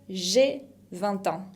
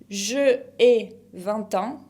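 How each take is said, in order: First: The vowel of je is dropped and joined to ai. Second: The vowel of je is kept as a separate syllable. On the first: The speaker calls it right. "se dice" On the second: The speaker calls it wrong. "en vez de decir"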